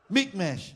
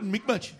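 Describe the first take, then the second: First: It is said in a British accent. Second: It is said in an Indian accent. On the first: "I'm sorry to say it in a British way" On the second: "Or Indian"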